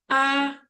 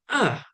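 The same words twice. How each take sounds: First: The pitch stays level and flat. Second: The pitch falls sharply downward. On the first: "untuk nada pertama, A, datar" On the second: "nada keempat, A, turun"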